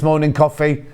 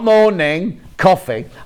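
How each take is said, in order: First: The two words run together without a pause. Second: There is a pause after the first word. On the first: It names a kind of biscuit. The speaker calls it right. "they're delicious morning coffee" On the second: It is a greeting followed by the word coffee. The speaker calls it wrong. "Not morning, coffee"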